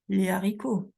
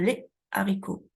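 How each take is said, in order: First: A z sound links les to haricots. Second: A break separates les from haricots. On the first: The speaker calls it wrong. "je ne vais pas dire les haricots" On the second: The speaker calls it right. "J'ai une cassure"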